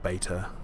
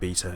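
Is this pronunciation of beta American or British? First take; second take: American; British. First: Beta is said with an American pronunciation. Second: Beta is said with a British pronunciation. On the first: The speaker calls it wrong. "not beta" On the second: The speaker calls it right. "I should be saying beta"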